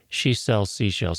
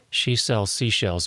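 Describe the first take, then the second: First: The s sounds are heavily dulled, almost lisping. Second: The s sounds are lightly dulled and stay crisp. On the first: "it's hitting it pretty hard right there" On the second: "back way off"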